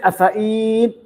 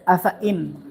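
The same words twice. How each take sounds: First: The vowel is held long. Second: The vowel is kept short. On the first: The speaker calls it wrong. "Don't say afa'in" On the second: The speaker calls it right. "you don't prolong here"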